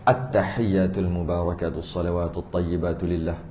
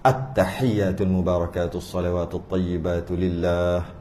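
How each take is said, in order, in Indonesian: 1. Dibaca cepat, 'lah' terakhir dipendekkan. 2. Dibaca dengan tempo sedang, 'lah' terakhir dibaca lebih panjang. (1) "nak cepat ni ... tu tak jaga tu. Yang lah tadi tak jaga" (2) "tu jaga. Biar panjang sikit"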